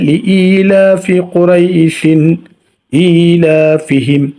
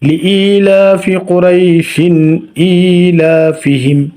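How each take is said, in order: First: It flows on with Qurayshin into the next word. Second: The same.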